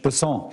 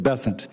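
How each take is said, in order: First: The name is said with a French pronunciation. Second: The name is said with a Southern US pronunciation. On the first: "with a French Basson" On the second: "That's what those folks in South Carolina do"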